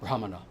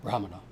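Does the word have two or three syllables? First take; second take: three; three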